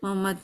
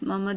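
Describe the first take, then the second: First: The throaty h sound is left out. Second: The same.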